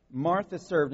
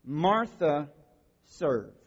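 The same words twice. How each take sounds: First: Martha stressed, served dropped lightly. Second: Said in the usual way. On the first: Shown as a demonstration. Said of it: "Okay? Martha served".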